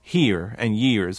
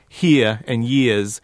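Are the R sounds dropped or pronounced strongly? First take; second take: pronounced strongly; dropped. First: The R sounds at the word ends are pronounced strongly. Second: The R sounds at the word ends are dropped. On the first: The speaker calls it right. "someone from Appalachia would force those R's" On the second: The speaker calls it wrong. "he's dropping those R's"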